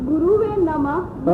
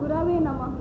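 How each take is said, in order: First: The second syllable is 'ru' with a u vowel. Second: The second syllable is 'ra' with an a vowel. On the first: The speaker calls it wrong. "रू नहीं" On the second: The speaker calls it right. "गुरवे रा"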